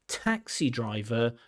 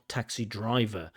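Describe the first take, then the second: First: The stress is on the first word. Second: The stress is on the second word. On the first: The speaker calls it right. "the stress falls on the first word" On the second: The speaker calls it wrong.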